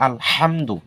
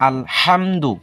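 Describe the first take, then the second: No difference in how they are said.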